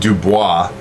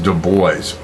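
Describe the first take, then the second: First: The name is pronounced the French way. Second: The name is pronounced a non-French way. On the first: The speaker calls it wrong. "that would be kind of a French pronunciation" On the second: The speaker calls it right. "it is pronounced Du Bois"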